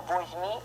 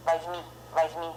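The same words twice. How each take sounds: First: Возьми said voz-MEE with a full O; strong-accent pronunciation. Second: Возьми said vaz-MEE; unstressed O as A. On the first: Teacher shows what learners should not say, возьми with full O. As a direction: keep a clear O in возьми. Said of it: "Don't say возьми". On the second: Teacher shows learners the reduced vowel, возьми with A. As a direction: open the first vowel of возьми to an A. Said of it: "we pronounce A". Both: Shown as a demonstration.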